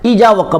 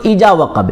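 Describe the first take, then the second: The two takes are said the same way.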